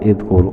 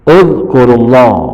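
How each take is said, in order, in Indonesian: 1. Kata ini diawali dengan vokal i. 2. Kata ini diawali dengan vokal u. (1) "bukan idkur"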